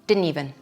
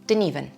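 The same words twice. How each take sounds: First: It is said fast with some sounds dropped. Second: The same.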